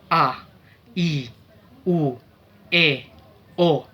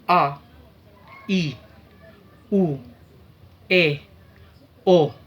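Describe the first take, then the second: First: The vowels are spoken at medium speed. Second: The vowels are spoken slowly. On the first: "dengan kecepatan medium" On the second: "dengan speed atau kecepatan yang lambat"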